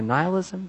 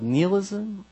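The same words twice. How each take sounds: First: "nihilism" said as NIGH-uh-liz-um; alternate pronunciation. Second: "nihilism" said as NEE-uh-liz-um; alternate pronunciation. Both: Shown as a demonstration. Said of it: "depending on how you enunciate".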